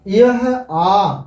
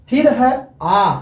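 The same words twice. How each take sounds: First: आ stretched very slowly; teacher shows आ by stretching it very slowly; drawn-out vowel. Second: आ said slowly and clearly; teacher shows आ to his students, sounding it out slowly; vowel demo. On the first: Teacher to students: आ stretched very slowly. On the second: Teacher to students: आ said slowly and clearly. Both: Shown as a demonstration. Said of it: "हम बोलेंगे आ".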